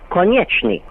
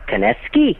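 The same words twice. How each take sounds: First: It has the original Eastern European pronunciation. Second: It has an Americanized pronunciation read from spelling. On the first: This is how it was said in the old country. The speaker calls it right. "Back in the old country, ... it was pronounced Konechny" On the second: This is how people say it from the spelling now. The speaker calls it wrong. "people look at it now, ... It comes out Konechny"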